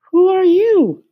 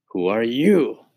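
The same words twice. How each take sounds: First: Very high, sing-song cricket asking who's there; much higher, lilting cricket voice; high musical cricket. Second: A hint of a mouse voice, near the narrator's own; lightly voiced mouse. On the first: Acted. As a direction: squeak it up high like a tiny cricket. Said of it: "He had a high musical voice". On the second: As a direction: ask it back simply, barely put on. Tucker asks back.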